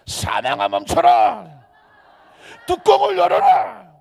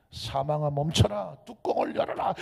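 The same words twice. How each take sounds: First: Full-force, high shouted command; 우렁찬 외침. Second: Said in the usual way. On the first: Shown as a demonstration. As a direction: roar the order at death, stretched out. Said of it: "안 되겠다". (온 힘을 다해 크게 외치며)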